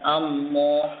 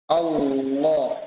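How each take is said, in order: First: The lips close together like an m sound. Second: The tongue tip makes a clear l sound. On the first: The speaker calls it wrong. "ya malah bibirnya dirapatkan" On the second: The speaker calls it right. "Tapi fokus pada huruf makhraj lam, ya ujung lidah"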